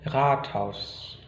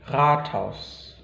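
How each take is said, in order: The two takes are said the same way.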